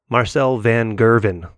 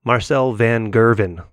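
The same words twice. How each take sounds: First: The name is said the American way. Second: The same.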